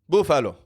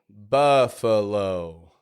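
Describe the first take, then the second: First: The word is said weakly, without projection. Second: The word is said clearly, projected from the belly. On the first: The listener cannot understand the place named. The speaker calls it wrong. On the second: The listener understands at once. The speaker calls it right.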